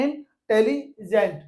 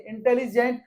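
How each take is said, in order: First: intelligent said slowly with pauses between syllables. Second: Said in the usual way. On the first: Shown as a demonstration. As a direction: break intelligent into slow separate syllables. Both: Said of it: "हम pause लेना पड़ता है".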